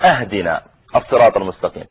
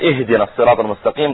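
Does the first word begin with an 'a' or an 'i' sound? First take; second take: a; i. First: The first word begins with an 'a' sound. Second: The first word begins with an 'i' sound. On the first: Give us the straight path as a gift. The speaker calls it wrong. "قال أهدنا الصراط المستقيم، ... هذا غير المعنى" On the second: Guide us to the straight path. The speaker calls it right. "بدل ما يقول اهدنا الصراط المستقيم"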